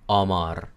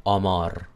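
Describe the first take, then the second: First: The vowels sound Spanish-like. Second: The vowels sound Spanish-like.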